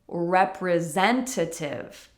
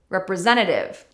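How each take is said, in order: First: The word is said slowly with every sound separate. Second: The word is said quickly with sounds blended together. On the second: "and quickly"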